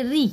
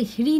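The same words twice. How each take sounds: First: री as "rih", r first and h after; correct reading. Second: ह्री with the h sounded before the r; wrong reading. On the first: Teacher showing learners how to read it, correct reading. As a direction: begin री on the r, breathe the h at the end. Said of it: "हम लोग इसे पढ़ेंगे री". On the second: Teacher warning learners how not to read it, wrong reading. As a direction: start ह्री on an h, then "ri". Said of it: "ह्री नहीं पढ़ेंगे". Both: Shown as a demonstration.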